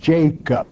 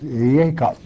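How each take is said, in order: First: The name is pronounced the usual English way. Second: The name is pronounced the Hebrew way. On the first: "I know that in English it's Jacob" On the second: "the correct pronunciation of the Hebrew word and name is Jacob"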